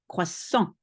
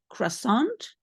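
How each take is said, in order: First: The word ends on a nasal vowel, nothing after. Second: The final consonant is pronounced at the end. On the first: The speaker calls it right. "There's nothing at the end" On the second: The speaker calls it wrong. "Don't say the ending, don't say croissant"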